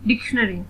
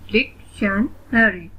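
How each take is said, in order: First: Said in the usual way. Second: "डिक्शनरी" slowly, broken at each syllable; split into syllables. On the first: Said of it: "read the word". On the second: Shown as a demonstration. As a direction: say "डिक्शनरी" in separate slow chunks. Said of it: "split in the syllables". ("डिक्शनरी" को धीरे-धीरे syllables में तोड़कर)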